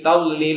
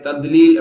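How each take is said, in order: First: The middle consonant sounds like an l. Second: The middle consonant sounds like a plain d. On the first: "லாம பயன்படுத்தி சொல்லுவாங்க. என்டெல்லி தப்பு" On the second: "தால் மாதிரி தத்லீல் அப்படி சொல்லுவாங்க. அதுவும் தப்பு"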